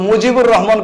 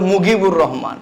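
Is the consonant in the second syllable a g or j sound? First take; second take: j; g. First: The second syllable starts with a j sound. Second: The second syllable starts with a g sound. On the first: The speaker calls it right. "ওনার নাম তারা নিয়েছিল মুজিবুর Rahman" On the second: The speaker calls it wrong. "ওনারা বলে মুগিবুর রহমান। এরা জিমের উচ্চারণ করে গাইন।"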